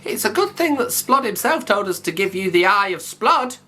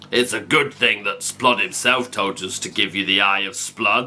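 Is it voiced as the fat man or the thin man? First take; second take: thin man; fat man. First: It is said in the thin man's voice. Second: It is said in the fat man's voice.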